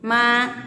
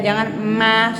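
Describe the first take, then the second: First: The lip closure is relaxed and natural. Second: The lip closure is exaggerated and overdone. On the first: The speaker calls it right. "ma biasa aja" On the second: The speaker calls it wrong. "salah, berlebihan itu"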